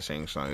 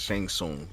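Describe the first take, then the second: First: Tsung said "sahng", open AH vowel; mistaken name pronunciation. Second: Tsung said "soong", with OO vowel; corrected name pronunciation. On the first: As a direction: say "Tsung" to rhyme with "song". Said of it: "I said Shang Tsung. It's Shang Tsung". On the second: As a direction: say "Tsung" with a long oo. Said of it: "Yeah, that's how it goes". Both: Shown as a demonstration.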